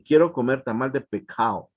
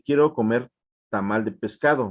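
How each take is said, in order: First: The s before the c becomes a breathy h. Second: The s before the c is fully pronounced. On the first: "hacen una aspiración eh, antes de, de, decir la, la oclusiva" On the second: "es como una expresión normal"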